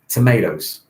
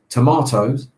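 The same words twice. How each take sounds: First: It is said with an American pronunciation. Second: It is said with a British pronunciation. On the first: "the Americans would say tomatoes" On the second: "my favorite one is tomatoes"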